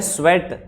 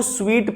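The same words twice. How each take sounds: First: "स्वेट" said as sweat with a short e; correct sweat. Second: "स्वीट" said as sweet with a long ee; wrong sweet reading. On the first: Teacher gives the correct reading, "स्वेट" as sweat, slowly. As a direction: says "स्वेट" like the English word sweat, slowly. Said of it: "ये है स्वेट यानी कि पसीना". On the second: Teacher shows the students' wrong reading, "स्वीट" with ee. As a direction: reads "स्वीट" like the English word sweet. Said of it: "ये स्वीट नहीं है". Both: Shown as a demonstration.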